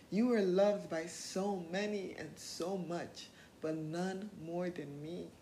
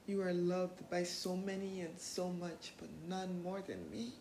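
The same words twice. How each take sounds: First: Doctor Who quote. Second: Slow, soft and tender; a soft, slow affirmation; Doctor Who quote. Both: Shown as a demonstration. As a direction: say it gently, like a promise to yourself. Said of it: "That's a quote from Doctor Who".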